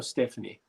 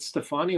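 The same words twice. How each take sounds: First: Stephanie said STEF-uh-nee; first syllable stressed in Stephanie, short middle vowel; pronunciation of Stephanie. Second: Stefani said steh-FAH-nee; long "ah" stressed in the middle of Stefani; pronunciation of Stefani. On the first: Quizmaster offers the alternative, Stephanie as STEF-uh-nee. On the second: Quizmaster checks the singer's name, [name] as steh-FAH-nee. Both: Shown as a demonstration. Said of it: "Is it [name] or [name]?".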